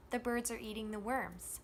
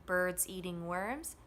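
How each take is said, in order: First: THE and ARE quick and light between BIRDS, EATING, WORMS; same three beats, THE and ARE squeezed in; function words unstressed. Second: Three even beats, BIRDS, EATING, WORMS; full weight on BIRDS, EATING, WORMS; content words only, stressed. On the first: Teacher comparing phrase timing, function words unstressed. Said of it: "Those words we're saying more quickly and quietly". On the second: Teacher comparing phrase timing, content words evenly stressed. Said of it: "the time it took us to say that phrase was about the same". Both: Shown as a demonstration.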